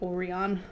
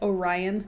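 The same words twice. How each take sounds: First: The name is said the Japanese way. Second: The name is said the American way.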